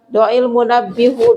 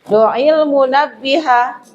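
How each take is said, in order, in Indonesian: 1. Kata terakhir diakhiri dengan vokal 'u'. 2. Kata terakhir diakhiri dengan vokal 'a'. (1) "kita ganti domah salah" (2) "tanda nasabnya pakai fathah"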